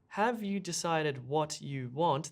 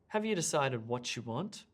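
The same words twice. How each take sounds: First: The t and y sounds stay separate. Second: The t and y blend into a ch sound. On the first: The speaker calls it wrong. "This is not how we speak at all" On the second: The speaker calls it right. "What we really say is"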